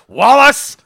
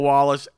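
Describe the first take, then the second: First: The name is said in a sharp, stern tone. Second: The name is said in a soft, gentle tone. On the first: The boy is in trouble. "when there's a different inflection in her voice" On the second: The grandmother is being loving. "there was two inflections in her voice"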